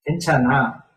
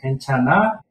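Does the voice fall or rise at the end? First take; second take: fall; rise. First: The pitch falls at the end. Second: The pitch rises at the end. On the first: It states that things are okay. "Statement form is just to put down" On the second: It asks whether someone is okay. "Intonations go up, end of sentence"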